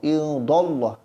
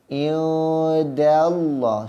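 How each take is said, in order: First: The d's vowel blurs between 'a' and 'u'. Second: The d takes a clear 'a' before Allah. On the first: The speaker calls it wrong. "Dallah tu salah. Seolah-olah huruf dal itu telah berubah" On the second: The speaker calls it right. "Sebut da dahulu, baru sebut Allah"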